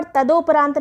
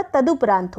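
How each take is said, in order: First: तदोपरांत with 'do' in the middle; wrong o vowel. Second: तदुपरांत with short 'du'; correct u vowel. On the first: Teacher rejecting a mistake, 'do' in तदोपरांत. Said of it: "तदोपरांत नहीं होता". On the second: Teacher giving correct form, short 'du' in तदुपरांत. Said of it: "तदुपरांत होता है". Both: Shown as a demonstration.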